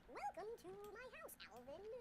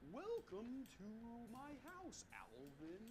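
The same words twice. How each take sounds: First: It is said fast. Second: It is said slowly.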